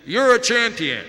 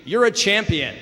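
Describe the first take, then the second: First: High, loud call thrown back; echoing answer. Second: High, projected call; loud shout. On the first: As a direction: ring it out like a mountain echo. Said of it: "the voice answers". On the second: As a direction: shout praise out to the mountain. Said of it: "the man screams". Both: Acted.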